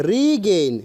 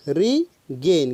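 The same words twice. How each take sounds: First: Said in the usual way. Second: Regain stretched very slowly, syllable by syllable; drawn out slowly. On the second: Shown as a demonstration. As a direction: spell out Regain slowly for the class.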